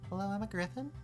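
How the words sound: It is spoken in a small, high voice. The speaker calls it right. "It's more like"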